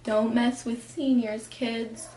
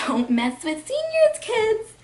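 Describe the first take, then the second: First: Lightly acted, restrained warning; toned-down teacher voice, trailing softer on kids; mock teacher warning. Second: High, squeaky mock warning; mock teacher warning. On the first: Teacher warning freshmen about seniors, understated mock warning. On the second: Teacher warning freshmen about seniors, exaggerated high voice. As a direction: shoot way up in pitch on the warning. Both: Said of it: "teachers being like".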